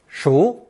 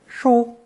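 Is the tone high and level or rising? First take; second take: rising; high level. First: It is said with a rising tone. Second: It is said with a high level tone. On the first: "This character is pronounced second tone" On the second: "and sometimes first tone"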